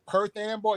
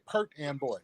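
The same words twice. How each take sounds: First: Put-on "Perth and boy" said distinctly as one name; local place-name pronunciation. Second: Put-on "Perth and boy" with "Perth" ending in a hard t; imitated local pronunciation. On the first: Shown as a demonstration. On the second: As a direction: say "Perth and boy" as "Pert Amboy". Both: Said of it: "Y'all say Perth and boy".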